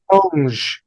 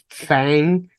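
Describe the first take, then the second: First: The vowel sounds like the 'u' in 'fun'. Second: The vowel sounds like the 'a' in 'fang'. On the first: The speaker calls it right. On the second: The speaker calls it wrong. "I'd been calling them Fang, which is incorrect"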